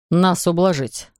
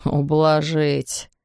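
First: Said in the usual way. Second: Very slow, mocking drawl on "Ублажить"; smirking echo. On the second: A narrator's reading. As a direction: savor "Ублажить" with a sneer. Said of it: "Каван ухмыльнулся себе под нос".

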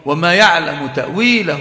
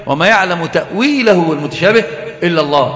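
First: Said in the usual way. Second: Stopping obligatorily at إلا الله; full stop after إلا الله. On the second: Shown as a demonstration. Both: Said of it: "قف وجوبا ولزاما".

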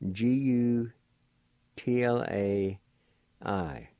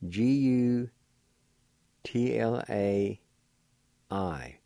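No difference in how they are said.

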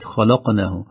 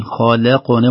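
First: خلقناه with the L darkened like its heavy neighbours; heavy lam, wrong way. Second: خلقنا with a thin, light L between heavy kh and q; light lam. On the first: Teacher showing listeners the mistake, heavy lam in خلقناه. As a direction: thicken the ل of خلقناه into a dark L. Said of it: "وليست". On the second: Teacher showing listeners the correct reading, light lam in خلقنا. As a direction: keep the ل of خلقنا clear and thin. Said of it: "نخلص اللام من الحرف". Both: Shown as a demonstration.

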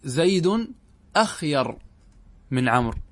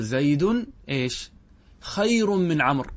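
First: أخير set off by pauses, initial hamza sounded; rejected form with hamza. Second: Slow, deliberate خير, starting straight on the kh; accepted form without hamza. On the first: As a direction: say أخير with an opening short a. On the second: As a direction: say خير with no opening syllable. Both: Shown as a demonstration. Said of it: "ولا تقول".

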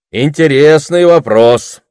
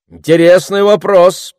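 First: Slow, high, loud orator voice; deliberate repeat. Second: Raised, louder public-speaker voice; orator's pronouncement. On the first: Orator repeats the question to stall the crowd, slow and emphatic. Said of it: "повторил оратор и прибавил". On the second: Orator weighing a question before the crowd, pronouncing it loudly. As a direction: answer out loud for the whole crowd. Оратор отвечает на вопрос из толпы. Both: A narrator's reading.

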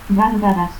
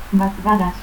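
First: Said in the usual way. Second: Gargaras as "batgaras". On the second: Shown as a demonstration. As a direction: stop for the first R in Gargaras. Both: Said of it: "confusión de R y T al final de sílaba".

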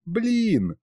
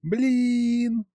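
First: A light giggled Блин, high and bright; mother giggles the baby's first word Блин; giggling wife. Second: Put-on tiny baby voice. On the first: Acted. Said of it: "хихикнула супруга". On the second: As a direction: say Блин as a swaddled infant's first word. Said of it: "донеслось тихо".

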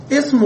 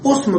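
First: اسم opened with a short i, "ism"; kasra on the first vowel. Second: اسم opened with a short u, "usm"; damma on the first vowel. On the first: Teacher showing students the common form, اسم begun with i. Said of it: "بكسر أو ضم". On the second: Teacher showing the weaker dialect form, اسم begun with u. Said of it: "بالضم في لغة ضعيفة". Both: Shown as a demonstration.

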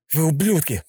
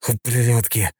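First: Вы ублюдки said louder and higher; louder defiance. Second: Hissed through teeth. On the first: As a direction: throw Вы ублюдки right in his face. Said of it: "уже громче повторил Йохан". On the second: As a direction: spit Ублюдки out under the breath. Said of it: "прошипел он сквозь зубы". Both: A narrator's reading.

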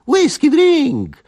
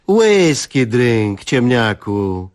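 First: Much higher, loud, slow cockerel crow. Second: Very slow, spelled-out scolding; slow lecturing. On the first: Young guest crowing proudly about his whisky. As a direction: crow the words out gleefully. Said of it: "zapiał młody Kalina". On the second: Wife lecturing husband slowly, hands on hips. Wzięła się pod boki i westchnęła. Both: Acted.

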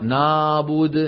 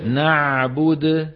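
First: نعبد with the عين turned into a flat vowel like ا; wrong ayn. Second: نعبد with a full throaty عين, slow; correct ayn. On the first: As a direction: say نعبد as if it were نابد. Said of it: "الخطأ". (عين خاطئة كالألف) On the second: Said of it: "الصواب أن نقول". (عين صحيحة من الحلق) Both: Shown as a demonstration.

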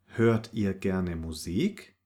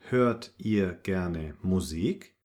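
Both takes have the same delivery.

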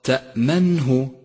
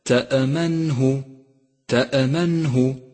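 First: تأمنه slowly, hamza cut cleanly; correct still hamza. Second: تأمنه with an extra echo after the hamza; wrongly bounced hamza. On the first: Teacher correcting تأمنه, unbounced hamza. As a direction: stop on the hamza in تأمنه without any echo. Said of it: "والصواب". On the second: Teacher showing common mistake in تأمنه, bounced hamza. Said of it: "فإياك أن تقلقل حرف الهمزة". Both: Shown as a demonstration.

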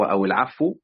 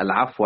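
First: العفو ending in -u; second reading variant. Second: العفو ending in -a; first reading variant. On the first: Teacher recaps the readings, nominative ending second. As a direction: say العفو with a final damma, "al-'afwu". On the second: Teacher recaps the readings, accusative ending first. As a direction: say العفو with a final fatha, "al-'afwa". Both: Shown as a demonstration. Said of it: "ذكر أوجه القراءة".

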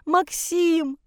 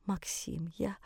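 First: High mother's cry; distraught wail. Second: Faint, faltering whisper. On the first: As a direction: call after him in anguish, pitched high. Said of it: "За спиной рыдала мать". (отчаянный высокий вопль) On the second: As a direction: whisper it, voice failing you. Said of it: "прошептала". (шёпотом, еле слышно) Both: Acted.

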